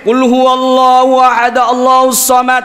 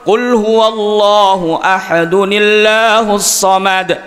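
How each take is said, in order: First: Ahad stops before the next word, with no n. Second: Ahad runs into the next word with an n. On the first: The speaker calls it wrong. "Tidak boleh" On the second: The speaker calls it right. "Seharusnya itu kalau memang wasal"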